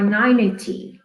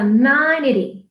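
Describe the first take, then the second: First: Ninety said slowly and fully, nai-nee-tee; full ninety. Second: Ninety said slowly with a tapped t, like nindy; flapped ninety. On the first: Teacher to students, giving the full ninety. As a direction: say ninety with every sound in it. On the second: Teacher to students, showing the relaxed ninety. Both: Shown as a demonstration. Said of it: "Or ninety".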